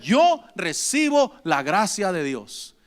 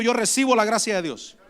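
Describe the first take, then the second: First: Slowly, leaning on "Yo recibo"; slow, heavy congregation repeat; slow emphatic repeat. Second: Lead-in for the congregation. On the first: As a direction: say "Yo recibo la gracia de Dios" slow and firm. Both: Shown as a demonstration. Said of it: "Diga conmigo".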